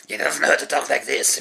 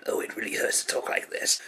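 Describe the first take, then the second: First: Said in the usual way. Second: Rasping unvoiced whisper, softer; Starscream whisper. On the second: Reviewer imitating Starscream's voice, raspy whisper. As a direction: rasp it out like Starscream.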